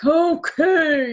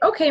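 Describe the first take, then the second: First: It is said in a reluctant, sulky tone. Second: It is said in a willing, pleasant tone. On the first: The child agrees unwillingly. The speaker calls it wrong. "not be like" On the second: The child agrees gladly. The speaker calls it right. "they need to say it with a good attitude"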